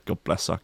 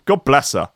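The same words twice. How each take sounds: First: Much softer, lower, fond; soft and tender. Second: Said in the usual way. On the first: Real, not acted. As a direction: murmur it so the dog stays asleep. Fondly about sleeping dog.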